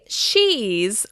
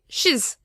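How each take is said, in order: First: The vowel is full and clearly pronounced. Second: The vowel is reduced to an indistinct sound. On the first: The speaker calls it wrong. "We don't say she's" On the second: The speaker calls it right. "we say shiz"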